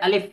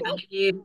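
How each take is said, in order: First: The vowel is kept short with no lengthening. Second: The vowel is drawn out long. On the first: The speaker calls it right. "আলিফে মোটেও টান দেওয়া যাবে না।" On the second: The speaker calls it wrong. "যদি কেউ বলে আলিফ, হবে? হবে না।"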